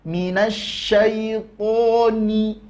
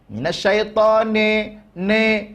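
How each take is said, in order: First: Minasyaitoni ending on a clean i, slow; pure i ending. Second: Minasyaitone, the last vowel drifting to e; wrong e ending. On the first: (akhiran ni murni) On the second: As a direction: end Minasyaitone on an e. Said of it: "mengarah ke huruf E". (akhiran ne, salah) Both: Shown as a demonstration.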